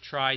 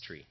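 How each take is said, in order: First: The word has the vowel of 'eye'. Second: The word has the vowel of 'ee'. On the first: "Some people pronounce it try these days" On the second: "but he says it's tree"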